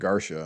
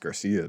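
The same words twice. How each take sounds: First: The name ends with a 'sha' sound. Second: The name ends with a 'see-ah' sound. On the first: This is how a character in a film said it. The speaker calls it wrong. "he kept saying Garcia" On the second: This is how the name is normally said. The speaker calls it right. "that's Garcia, dog"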